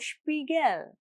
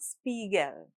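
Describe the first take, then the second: First: The word begins with an shp sound. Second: The word begins with a plain sp sound. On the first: The speaker calls it right. "German S P at the start of a word is pronounced Sp. So Spiegel" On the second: The speaker calls it wrong. "not Spiegel"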